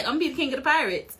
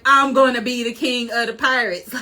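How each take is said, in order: First: Quick, offhand toss of the line; nonchalant. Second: Emphatic boast, each word driven home; sure declaration. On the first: Fan acting out Luffy meeting people, super chill. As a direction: say it fast like it's no big deal. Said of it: "super chill and so nonchalant". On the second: Fan acting out Luffy sure of himself after the fruit, emphatic. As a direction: proclaim it with total certainty. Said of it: "he's for sure like". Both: Retold or imitated.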